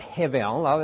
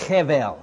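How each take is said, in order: First: It is said with an Australian accent. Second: It is said with a Middle Eastern accent. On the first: The speaker calls it wrong. "that's just a real Aussie way of saying it" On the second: The speaker calls it right. "You've got to get Middle Eastern if you want to say this"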